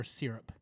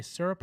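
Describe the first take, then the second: First: "syrup" with first syllable like "seer". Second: "syrup" with first syllable like "sir"; syrup as SUR-up. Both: Shown as a demonstration. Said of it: "Do you say syrup or syrup?".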